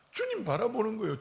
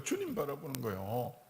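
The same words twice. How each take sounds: First: 주님 stressed, falling at the end; emphatic. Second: 주님 softer, rising gently; soft echo. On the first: Preacher stresses 주님 to the congregation. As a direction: land 주님 firmly. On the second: Preacher softly echoes 주님 to the congregation. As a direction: breathe 주님 quietly back. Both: Shown as a demonstration.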